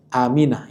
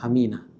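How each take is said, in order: First: The first vowel is held long. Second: The first vowel is kept short. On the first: The speaker calls it right. "Aminah ya, ... Hamzahnya dipanjangkan" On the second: The speaker calls it wrong. "bukan Aminah"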